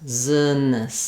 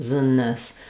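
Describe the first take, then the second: The two takes are said the same way.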